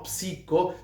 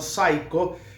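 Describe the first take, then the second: First: It is said with a Spanish-style reading. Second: It is said with an English-style reading. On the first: The speaker calls it wrong. "no psico" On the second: The speaker calls it right. "sino psycho"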